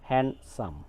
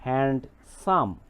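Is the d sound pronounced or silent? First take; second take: silent; pronounced. First: The d sound is left out entirely. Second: The d sound is pronounced after n. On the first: The speaker calls it right. "উচ্চারণ করতে হবে" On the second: The speaker calls it wrong. "এভাবে উচ্চারণ করা যাবে না"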